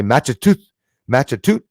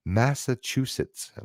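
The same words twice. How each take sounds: First: "Matchatoot", slurred Massachusetts ending on "toot"; fast-speech mispronunciation. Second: "Massachusetts" said slowly, every syllable in place; careful pronunciation. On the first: Canadian host showing how Massachusetts gets garbled, mispronounced as "Matchatoot". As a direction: say a louder, botched "Matchatoot", dropping the final s sounds. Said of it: "If you say it too fast, you'll say".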